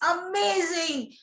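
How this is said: The word is said with strong emotion. The mind takes in the feeling. The speaker calls it right. "I am putting emotion to it"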